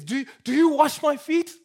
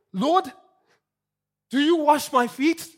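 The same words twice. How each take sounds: First: Emphatic shocked question. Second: Peter's question, higher and louder with a rising end; incredulous, leaning hard on YOU; emphatic shocked question. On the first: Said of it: "in what Peter says". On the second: Peter aghast as Jesus kneels, emphatic disbelief. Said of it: "is an emphatic question". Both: Retold or imitated.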